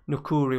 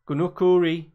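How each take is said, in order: First: The name begins without any G sound. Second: The name begins with a hard G sound.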